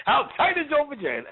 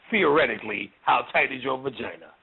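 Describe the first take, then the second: First: Pitched way up, teasing question; mock-eager asking. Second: Low-pitched, feigned hypothetical; mock-casual asking. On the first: Spirit answering a self-declared child, high mock-eager. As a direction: ask it high with a big falling end. Spirit's blunt reply to a follower. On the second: Spirit retrying with a follower, mock-casual and low. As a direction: drop it low, as if only theoretical.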